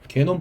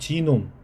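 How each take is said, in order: First: The word begins with a hard 'g' sound. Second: The word begins with a 'j' sound. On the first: This is the commonly heard form. "뭐 우리가 뭐 게놈 프로젝트 뭐 이런 얘기 하잖아요" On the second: This is the English pronunciation. "영어로는 지놈"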